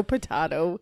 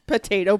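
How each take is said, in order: First: Potato said as po-TAH-to; potato with ah vowel. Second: Potato said as po-TAY-to; potato with long a. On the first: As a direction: pronounce potato with an open ah. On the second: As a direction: pronounce potato with an ay vowel. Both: Shown as a demonstration.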